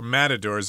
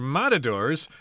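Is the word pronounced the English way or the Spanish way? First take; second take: English; Spanish. First: It is pronounced with an English accent. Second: It is pronounced with a Spanish accent.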